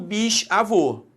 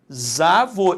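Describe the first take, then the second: First: The s stays separate from the following vowel. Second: The s is joined to the following vowel. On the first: The speaker calls it wrong. "e não" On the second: The speaker calls it right. "associar essa consoante à vogal, fazendo uma sílaba"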